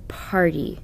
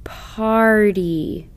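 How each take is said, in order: First: Party said quickly as one whole word; quick plain Party; read quickly. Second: Party stretched slowly, sound by sound; drawn-out Party. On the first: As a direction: snap out Party fast. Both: Shown as a demonstration. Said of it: "The review word should be read like this".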